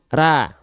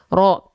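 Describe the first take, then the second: First: The mouth is simply open, giving an a-like vowel. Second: The lips are pushed forward, giving an o-like vowel. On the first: The speaker calls it right. "Cukup buka mulut tanpa senyum" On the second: The speaker calls it wrong. "memanyunkan mulut teman-teman ke arah depan"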